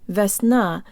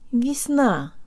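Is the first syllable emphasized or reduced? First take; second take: emphasized; reduced. First: The first syllable is full and emphasized. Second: The first syllable is weak and reduced. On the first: The speaker calls it wrong. "It's not vesna" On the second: The speaker calls it right. "de-emphasize the first syllable"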